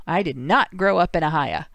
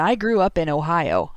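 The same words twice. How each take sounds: First: "Ohio" reduced to "uh-HI-uh"; Southern Ohio pronunciation. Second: Said in the usual way. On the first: Shown as a demonstration. Host joking about home state, "Ohio" said as "Ohia". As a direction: end "Ohio" on "uh", not "oh". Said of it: "then we have a Southern Ohio accent". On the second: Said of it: "we have a Northern Ohio accent".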